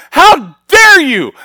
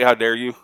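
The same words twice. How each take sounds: First: Slow, high, shouted "How dare you?"; furious challenge. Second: Said in the usual way. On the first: Retold or imitated. Grieving son shouting at God, slow, high and loud. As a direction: hurl it up at heaven, slow and loud. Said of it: "I'm looking at God going". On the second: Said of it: "look at God and say".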